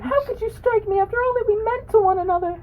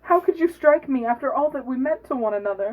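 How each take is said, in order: First: High-pitched hog voice. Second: Hog voice only slightly higher; a touch higher than normal; raised voice. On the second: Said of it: "have the hog speak in a high voice". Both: Acted.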